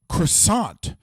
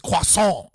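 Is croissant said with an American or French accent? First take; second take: American; French. First: It is said with an American accent. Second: It is said with a French accent. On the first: It is meant to annoy French people. "say French words in an American accent" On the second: It corrects the other pronunciation. "a Frenchie shows up and goes"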